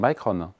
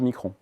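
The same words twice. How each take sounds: First: The name is pronounced the English way. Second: The name is pronounced the French way. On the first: The speaker calls it right. "on dit Micron" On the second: The speaker calls it wrong. "pas Micron ... moi je pense à la française"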